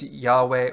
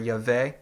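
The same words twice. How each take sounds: First: The name is said with A and W sounds. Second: The name is said with A and E sounds. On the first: "with an A and a W" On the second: "or an A and an E sounds"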